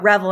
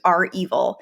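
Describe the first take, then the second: First: It sounds like one word rhyming with level. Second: It sounds like the letter R plus evil. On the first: The speaker calls it wrong. "People thought Revel" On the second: The speaker calls it right. "It was R Evil"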